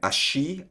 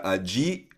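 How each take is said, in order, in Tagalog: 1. Sinasabi ito sa aksent na Argentino. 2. Sinasabi ito sa aksent na Colombiano. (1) "like dito sa Argentina" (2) "Sa Colombia siguro"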